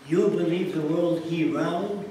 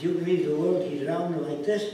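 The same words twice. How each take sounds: First: Put-on louder, slow Middle Eastern accented question. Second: Put-on louder Middle Eastern accented question, rising on "this". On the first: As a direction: mimic the head guy's broken English, incredulous. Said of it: "That's his words". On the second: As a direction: mimic him holding up his hands, incredulous. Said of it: "He says".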